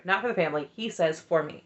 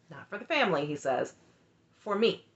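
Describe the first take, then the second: First: "Not for the family" redone, running on into "For me"; corrected emphasis. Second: "Not for the family" set apart, then "For me" after a pause; misplaced emphasis. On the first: Correcting her quote of the husband, emphasis redone. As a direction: restate the quote more connectedly, without the long pause before "For me". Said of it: "I'm sorry". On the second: Quoting the husband on his decision, emphasis misplaced. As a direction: quote it in pieces, pausing before "For me". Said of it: "put the emphasis in the wrong place". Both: Retold or imitated.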